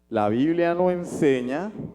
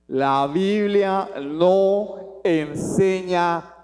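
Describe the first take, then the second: First: It is said softly and quietly. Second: It is said loudly and forcefully. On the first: The speaker avoids sounding like he is shouting. "entonces voy a hablar más bajito" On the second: The point is being emphasized, not said in anger. "¿Por qué lo digo así? No estoy bravo, es que quiero hacer énfasis"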